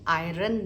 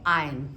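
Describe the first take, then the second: First: The word is said with an r sound. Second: The word is said without an r sound. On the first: The speaker calls it wrong. "हमने आयरन नहीं बोलना" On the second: The speaker calls it right. "इसमें आर का sound र जो है वो silent है"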